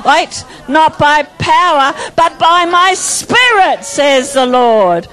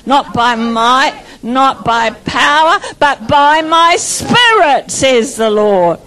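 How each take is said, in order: First: Slower fervent declaration. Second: Slow, drawn-out scripture, each phrase weighted; fervent declaration. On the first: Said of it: "Come on, get into it". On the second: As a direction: deliver it slow and full of conviction. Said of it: "now you're getting it". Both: Shown as a demonstration.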